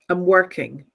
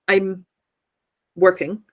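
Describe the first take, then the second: First: The words are run together as one block. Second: The words are said separately with a break. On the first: The speaker calls it right. "All of that should be together" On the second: The speaker calls it wrong. "it's not I'm working"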